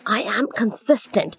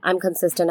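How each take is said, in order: First: It is said with power and emotion. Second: It is said flatly, without emotion. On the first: The speaker calls it right. "that adds power and emotion to your affirmations" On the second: The speaker calls it wrong. "instead of saying"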